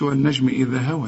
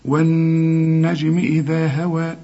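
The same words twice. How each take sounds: First: The n sound is short, without a held nasal. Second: The n sound is held with long nasal resonance. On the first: The speaker calls it wrong. "ما تقولش" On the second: The speaker calls it right. "لازم تغني ما دام عليها الشدة"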